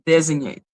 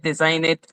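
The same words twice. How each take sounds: First: "designate" with DEZ first and "nate" last; corrected pronunciation. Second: "design it", with a long "sign" in the middle; mispronouncing designate. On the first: Reader fixing her own stumble, saying "designate" as DEZ-ig-nate. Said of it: "de-, designate". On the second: Reader stumbling over a legal word, saying "design it" for designate. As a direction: say "design it" in place of designate, low-pitched. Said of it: "ah, design it". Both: Real, not acted.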